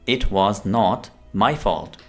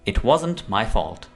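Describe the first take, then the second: First: Was and not are said as separate words. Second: Was and not are joined into wasn't.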